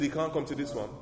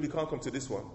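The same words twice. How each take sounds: First: Said again, a bit faster and pointed; teasing the church about the enemy; repeated for emphasis. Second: Said in the usual way. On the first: Shown as a demonstration. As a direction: repeat it to make sure they heard. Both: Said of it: "I said".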